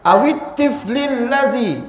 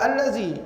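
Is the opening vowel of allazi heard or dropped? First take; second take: dropped; heard. First: The opening vowel is dropped, joined to the word before. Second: The opening vowel is pronounced, starting fresh. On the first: The word is read joined to the one before. "kalau kita sambung, ... kita tak sebut alif tu" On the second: Reading starts again after a stop. "Mula balik allazi, baru sebut allazi"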